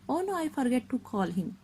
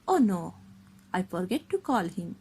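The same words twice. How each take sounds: First: It runs on with no pause after "no". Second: There is a short pause after "no". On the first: The speaker calls it wrong. "we cannot say like that" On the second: The speaker calls it right. "we stop for a little while"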